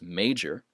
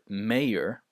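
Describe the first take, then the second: First: The middle consonant is a j sound. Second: The middle consonant is a y sound. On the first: The speaker calls it right. "This is major and majority" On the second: The speaker calls it wrong. "the J is pronounced like a Y, so some people might uh, pronounce this word mayor, but that's incorrect"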